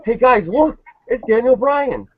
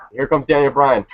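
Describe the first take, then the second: First: Much higher, slower, hammed-up goofy commentator; mock Jerry Lawler. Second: Lightly mocked dull announcer, barely moved from own voice; a bored, limp entrance call; flat Michael Cole call. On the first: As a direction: squeak it out like a clueless announcer. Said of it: "Jerry Lawler's like". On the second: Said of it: "this is how Michael Cole announces".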